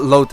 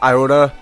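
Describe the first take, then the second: First: The word begins with an L sound. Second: The word begins with an eye vowel sound. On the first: The speaker calls it wrong. "it's not Lota" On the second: The speaker calls it right. "I think it's Iota"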